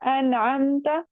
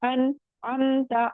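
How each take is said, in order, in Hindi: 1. शब्द बिना किसी रुकावट के आगे बढ़ता है। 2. 'an' के बाद थोड़ा सा रुकना है।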